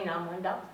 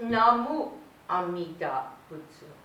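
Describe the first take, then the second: First: The phrase is squeezed into one quick word. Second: The phrase is said in full, every syllable. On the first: "because it's quick and it's easy" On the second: "I grew up with"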